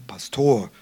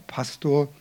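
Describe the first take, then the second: First: The stress is on the second syllable. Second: The stress is on the first syllable. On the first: The speakers want to set themselves apart from northerners. "Betonung auf der zweiten Silbe" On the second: This is the usual northern way of saying it. "In Norddeutschland heißt er Pastor"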